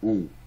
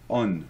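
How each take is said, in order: First: A nasal vowel with no N consonant. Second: The vowel ends with an audible N consonant. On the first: The speaker calls it right. "ça vibre plus vers le nez" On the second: The speaker calls it wrong. "tu ne dois pas dire on"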